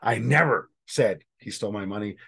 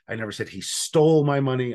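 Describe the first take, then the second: First: The stress is on "never". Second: The stress is on "stole".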